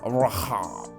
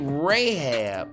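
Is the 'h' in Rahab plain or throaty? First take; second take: throaty; plain. First: The name is said with a throaty, guttural h. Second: The name is said with a plain English h. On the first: This is how it was said in that part of the world long ago. The speaker calls it right. "back then in them days, it would have been pronounced Rahab" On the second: This is how Americans say it. The speaker calls it wrong. "that's the America way of saying it"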